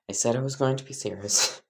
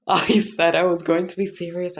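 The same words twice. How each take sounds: First: It is said in a lowered, deeper voice. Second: It is said in a normal-pitched voice. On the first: The speaker calls it right. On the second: The speaker calls it wrong.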